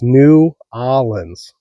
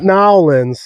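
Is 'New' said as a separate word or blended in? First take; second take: separate; blended. First: The name is said with 'New' as a separate word. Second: The name is squeezed into fewer, blended syllables. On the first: The speaker calls it right. "It's New Orleans" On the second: The speaker calls it wrong. "I was told not to say Nowlands"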